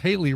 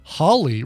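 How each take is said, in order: First: The name rhymes with Daly. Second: The name rhymes with Crawley. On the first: "or sometimes Haley rhyming with Daly" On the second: "preferred Hawley rhyming with Crawley"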